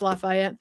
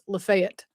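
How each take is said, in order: First: It is said the Louisiana way. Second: It is said the Tennessee way. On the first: This is how the Louisiana town is named. "You're in Louisiana, so it's Lafayette" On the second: This is how the Tennessee town is named. "Tennessee has a Lafayette, but we don't pronounce it like that. It's Lafayette"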